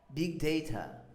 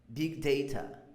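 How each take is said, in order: Both takes have the same delivery.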